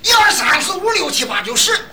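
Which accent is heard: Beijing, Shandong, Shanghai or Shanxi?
Shandong. The numbers are counted in a loud Shandong accent.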